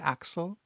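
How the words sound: The name is said with English pronunciation. "and not in the English way"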